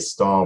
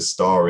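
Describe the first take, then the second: First: It ends in a vowel with no r sound. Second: An r sound links it to the next vowel. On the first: "without the rhotic" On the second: "the rhotic appears suddenly because star is followed by in"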